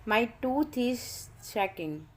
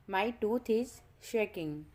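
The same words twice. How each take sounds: The two takes are said the same way.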